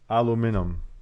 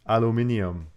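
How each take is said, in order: First: It is said in an American accent. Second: It is said in an English accent.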